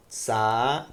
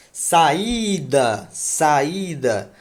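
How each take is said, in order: First: "Saída" split, a long pause between Sa and ída; syllable by syllable. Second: "Saída" said whole, the Í loud and drawn out; stressed hiatus vowel. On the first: Teacher showing a hiatus as separated vowels, syllable by syllable. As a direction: break "Saída" apart: Sa, then ída. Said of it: "Hiato é a separação". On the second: Teacher proving A and I are separate syllables, stressed Í. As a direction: lean long on the Í of "Saída". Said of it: "A e I estão em sílabas diferentes". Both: Shown as a demonstration.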